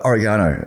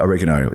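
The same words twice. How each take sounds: First: It is said in a British accent. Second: It is said in an American accent.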